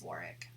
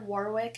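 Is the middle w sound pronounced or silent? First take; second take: silent; pronounced. First: The middle w sound is left silent. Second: The middle w sound is clearly pronounced. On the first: The speaker calls it right. "it's Warwick. That sounds more legit" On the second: The speaker calls it wrong. "Instead of Warwick"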